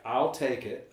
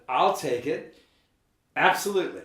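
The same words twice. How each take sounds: First: Said in the usual way. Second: Louder, higher and eager. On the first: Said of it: "I immediately wrote back". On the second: Retold or imitated. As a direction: jump at the offer. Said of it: "I said".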